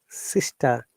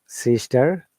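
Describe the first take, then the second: First: The final R sound is dropped. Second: The final R sound is pronounced. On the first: "This is British English" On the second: "if you want to pronounce these words in American English"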